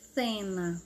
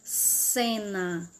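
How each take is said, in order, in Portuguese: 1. A primeira consoante é um som de th. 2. A primeira consoante é um som de s. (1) "Lá na Espanha, como era?" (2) "só com o som de S"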